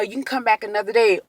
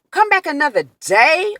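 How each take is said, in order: First: Said in the usual way. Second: High-pitched, indignant questioning repeat; outraged retold echo, pitched up; incredulous echo. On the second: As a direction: throw the suggestion back in disbelief. Echoes the suggestion in angry disbelief.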